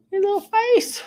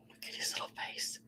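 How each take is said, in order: First: High squeaky cooing voice; overwhelmed by cuteness. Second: Overwhelmed by cuteness. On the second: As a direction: whisper it, melting over something cute. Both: Real, not acted. Cooing over a cute figurine.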